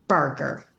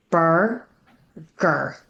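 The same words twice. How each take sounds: First: "burger" run together as one word, no gap; blended whole word. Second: "Burger" in two separate syllables, bur, then ger. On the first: Teacher putting the syllables together, "burger" said whole. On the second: Teacher showing how to blend, "Burger" broken into syllables. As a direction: sound out "Burger" slowly with a clear gap after bur. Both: Shown as a demonstration. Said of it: "blend each syllable into a new word".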